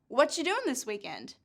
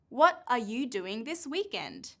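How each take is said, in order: First: 'Are' is dropped and 'what you' becomes 'whatcha'. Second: Every word is said fully and separately.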